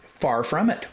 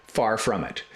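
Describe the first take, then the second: First: Far from it sung out higher with a rising end; mock TV pitchman. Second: Said in the usual way. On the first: Shown as a demonstration. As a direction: hype it like a late-night ad. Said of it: "The Ronco tape case". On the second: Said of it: "It's like a K-Tel commercial".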